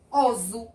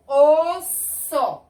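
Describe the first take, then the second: First: "oso" with a voiced z; som de um S. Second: "osso" high, loud, in two syllables; som de S. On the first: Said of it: "Se eu colocar só um S". ("oso" com som de Z) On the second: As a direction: stretch "osso" as os-so, hissed. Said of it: "o sonzinho do cedilha". ("osso" silabado, com som de S) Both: Shown as a demonstration.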